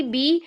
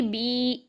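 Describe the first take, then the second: First: Short vowel in "बी"; "बी" with a quick short i. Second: "बी" with the i stretched long; lengthened "बी", held as a madd; madd, long vowel. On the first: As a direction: say "बी" briefly, without stretching the i. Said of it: "बा की जेर अदा की". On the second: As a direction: draw out the vowel of "बी". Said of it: "ये तो मद बन गई". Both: Shown as a demonstration.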